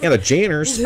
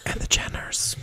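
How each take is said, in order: First: High, sing-out voice; playful announcement. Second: Whispered, hushed afterthought; stage whisper. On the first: Host repeating the whispered name out loud, high-pitched. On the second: Host finishing an aside to listeners, whispering. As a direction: add it in a secretive whisper. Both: Pretend.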